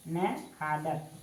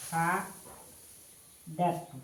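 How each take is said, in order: First: Said in the usual way. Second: Very slow, with a gap inside the word; slow dictation. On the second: Shown as a demonstration. Teacher writing the verb out for students, slow dictation. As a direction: draw the word out in separate syllables.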